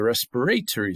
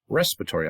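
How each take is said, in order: First: The stress is on a later syllable. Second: The stress is on the first syllable. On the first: "accent move" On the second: "respiratory accent on the first syllable"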